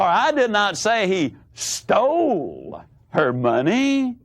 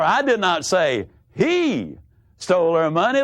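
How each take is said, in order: First: The stress is on "stole". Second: The stress is on "he".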